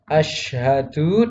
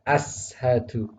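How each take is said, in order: First: The first consonant is an sh sound. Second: The first consonant is a plain s sound. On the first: The speaker calls it right. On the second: The speaker calls it wrong.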